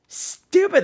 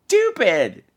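First: "Stupid" said much higher, falling; a host exasperated at callers, with a high falling "Stupid"; high exasperated repeat. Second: Said in the usual way. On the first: Shown as a demonstration. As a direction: fling "Stupid" up high in disbelief.

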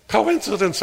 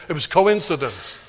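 First: Coincidence pitched high and scoffing; self-mocking. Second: Said in the usual way. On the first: Preacher mocking his own excuse, Coincidence pitched high. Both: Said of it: "I tell myself".

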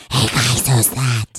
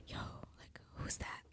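First: Loud, low gremlin rasp; gremlin-like failed whisper. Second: Hushed, confidential whisper; proper whisper. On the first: Retold or imitated. Mocking the cousin's failed discreet question, gremlin whisper. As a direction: botch a whisper into a loud, deep hiss. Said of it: "Like some gremlin voice". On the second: Shown as a demonstration. Asking cousins discreetly about a stranger, whispered. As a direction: whisper it for only the person next to you. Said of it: "You know, you'd whisper".

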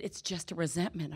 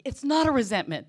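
First: Said in the usual way. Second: Loud, indignant retort, pitched up; stubborn protest, half-mock; indignant denial. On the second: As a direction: push back hard and loud against the verdict. Acted quarrel with the sponsor.

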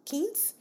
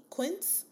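First: "Quince" tried as KEENS, no w sound, rising high; alternative pronunciation. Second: "Quince" tried as KWINTS, with a questioning rise; unsure pronunciation. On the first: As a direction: question "Quince" as keens, higher pitched. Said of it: "I'm not sure how to say it". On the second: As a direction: try "Quince" with a kw sound, unsure. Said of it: "not sure how to say it". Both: Real, not acted.

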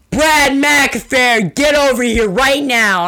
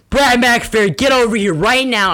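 First: High, loud, slow angry teacher yell; teacher shouting across the field for Brad. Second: High, loud scolding teacher call; teacher yelling for Brad to come over. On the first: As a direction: call the kid over like a furious teacher. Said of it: "all I hear is". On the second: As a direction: summon the kid like an angry teacher. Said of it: "then she's like". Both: Retold or imitated.

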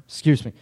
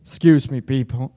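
First: Rough after coughing; coughing up water. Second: Cough-choked apology; coughing up water. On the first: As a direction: still choking on water. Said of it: "Water went down the wrong way". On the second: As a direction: clear throat, water went down wrong. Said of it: "how professional". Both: Real, not acted.

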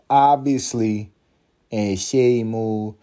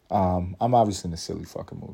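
First: Slow drawn-out. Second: Said in the usual way. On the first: Pretend. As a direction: stretch each word out slowly.

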